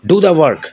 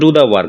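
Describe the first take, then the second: First: It is said as a forceful, emphatic command. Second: It is said as a calm, plain command. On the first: It is an urgent, insistent command. "যখন আমি জোর দিয়ে বলবো" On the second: It is an ordinary command. "সাধারণ কোনো আদেশ"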